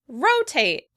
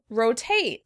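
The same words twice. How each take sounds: First: The stress is on the first syllable. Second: The stress is on the second syllable. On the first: "Americans stress the first syllable" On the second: "The British would stress the second syllable"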